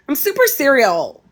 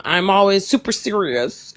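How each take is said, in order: First: "serial" said jokingly in place of "serious", pitched higher; a goofy "I'm super serial", light and higher; super serial joke. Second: Said in the usual way. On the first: Shown as a demonstration. Jokey twist on super serious.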